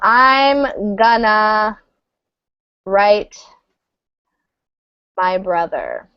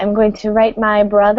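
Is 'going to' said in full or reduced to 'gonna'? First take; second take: reduced; full. First: Going to is reduced to gonna. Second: Going to is said as two full words.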